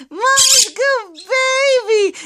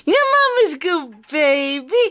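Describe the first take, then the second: First: Put-on "Mama's good baby" slow and high, leaning on "Mama's"; high sing-song. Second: Said in the usual way. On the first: Shown as a demonstration. Owner teaching her parrot the phrase, high and slow. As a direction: pitch it up slowly so the bird can copy. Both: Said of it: "let's do it again".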